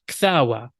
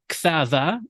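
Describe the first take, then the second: First: The middle consonant is a w sound. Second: The middle consonant is a v sound. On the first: This is a modern pronunciation. "In the modern, you may have" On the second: This is the classical pronunciation. "in the classical Syriac pronunciation"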